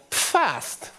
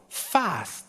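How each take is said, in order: First: The initial P is pronounced. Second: The initial P is silent. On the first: This is how it is said in Germany. The speaker calls it right. "this is called PFAST in Germany, because we pronounce the P" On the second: This is how it is said in the US. The speaker calls it wrong. "in the U S, this would be pronounced FAST"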